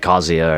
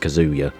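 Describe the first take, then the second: First: The name is said with a Japanese-style pronunciation. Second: The name is said with an English-style pronunciation. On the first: This is how the original language would say it. The speaker calls it right. "where I say Kazuya" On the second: This is how other people say it. The speaker calls it wrong. "everyone else says Kazuya. I fucking hate how that sounds"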